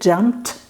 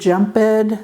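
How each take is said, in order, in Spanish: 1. La terminación se pronuncia como un sonido t. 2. La terminación se pronuncia como una sílaba extra. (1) "la ed se va a pronunciar como T" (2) "no va a decir jumped, ... aunque se oye mucho, es un error"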